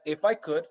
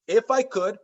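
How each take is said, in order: First: "I" weighted with falling tone in "if I could"; stress on I. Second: "I" raised and pushed in "If I could"; stress on I. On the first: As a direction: lean on the "I" in "if I could". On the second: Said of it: "fill in the blank". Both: Shown as a demonstration.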